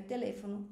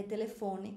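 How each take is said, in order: First: "teléfono" stressed on LÉ; Spanish stress. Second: "telefone" stressed on FO; Portuguese stress. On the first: Teacher gives the Spanish word, stress on LÉ. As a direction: put the weight on LÉ in "teléfono". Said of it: "no espanhol é teléfono". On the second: Teacher gives the Portuguese word, stress on FO. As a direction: put the weight on FO in "telefone". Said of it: "que no português é telefone". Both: Shown as a demonstration.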